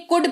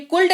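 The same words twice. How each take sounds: First: कुड with a silent L; correct pronunciation. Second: कुल्ड with the L sounded; wrong pronunciation. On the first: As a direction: say कुड, no L before the D. (सही उच्चारण, कुड में ल मौन) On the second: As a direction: say कुल्ड with L before D. (गलत उच्चारण, कुल्ड में ल बोलकर) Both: Shown as a demonstration. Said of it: "ये कुल्ड नहीं कुड पढ़ा जाता है".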